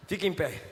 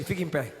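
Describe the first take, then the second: First: Low, soft, even command again; calm command. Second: Low, soft, even command; calm command. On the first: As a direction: repeat it gently. God's command repeated quietly. (ordem repetida, baixa e calma) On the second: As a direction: speak it gently but firm. God voiced quietly to Moses. (ordem calma, baixa e suave) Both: Acted.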